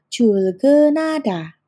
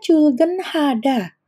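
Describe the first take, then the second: First: The h sound is merged and not heard. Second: The h sound is said out clearly. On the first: "sehingga dibacanya menjadi Chulgenada" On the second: "itu kan tulisannya Chulgenhada"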